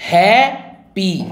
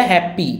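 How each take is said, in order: First: happy slowly in two separate beats; happy split with a clear gap between syllables. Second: Said in the usual way. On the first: Shown as a demonstration. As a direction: sound out happy as HAP, then PEE. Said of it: "दो syllable". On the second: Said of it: "जब हमने बोला happy".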